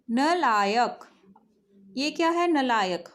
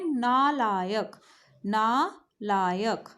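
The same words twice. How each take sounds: First: नलायक with a short first vowel; wrong pronunciation demo. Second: नालायक with a long आ, very slowly; slow correct pronunciation. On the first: Teacher reads the textbook's wrong नलायक aloud. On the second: Teacher models the right नालायक slowly for pupils. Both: Shown as a demonstration. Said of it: "हम क्या बोलते हैं?".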